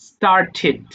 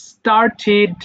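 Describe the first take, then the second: Both takes have the same delivery.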